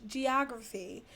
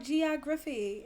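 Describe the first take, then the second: First: Said in the usual way. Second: "geography" said the friend's mistaken way; drawn-out, wrong-sounding "geography"; mispronounced geography. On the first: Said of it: "It's geography". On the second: Shown as a demonstration. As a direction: demonstrate her odd "geography". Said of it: "No, it is not geography".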